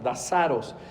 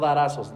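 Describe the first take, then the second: First: The consonant after the first vowel is an s. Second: The consonant after the first vowel is not an s. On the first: The speaker calls it right. "es con S" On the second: The speaker calls it wrong. "no darazos"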